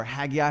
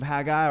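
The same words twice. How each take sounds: First: "Haggai" said as HAG-ee-eye; three-syllable Haggai. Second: "Haggai" said as HAG-eye; two-syllable Haggai. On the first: Preacher offering another pronunciation, "Haggai" as HAG-ee-eye. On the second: Preacher naming the book, "Haggai" pronounced HAG-eye. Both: Shown as a demonstration. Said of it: "however you wanna pronounce it".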